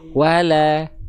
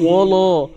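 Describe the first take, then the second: First: The L sound is light and thin. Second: The L sound is heavy and dark. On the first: The speaker calls it right. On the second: The speaker calls it wrong.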